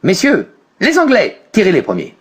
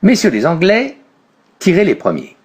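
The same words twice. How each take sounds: First: A pause follows the first word, before 'les Anglais'. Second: No pause after the first word; pause after 'Anglais'. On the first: Listeners are told that the English are firing first. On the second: The English are invited to fire first.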